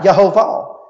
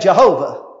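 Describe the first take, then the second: First: The name is said with its Hebrew pronunciation. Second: The name is said with its usual English pronunciation. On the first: "The word Lord is the Hebrew word Yehovah, if I read the pronunciation key right" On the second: "It's what we say"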